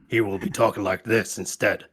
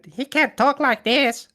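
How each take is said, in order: First: It is said in a deep, burly voice. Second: It is said in a light, non-burly voice.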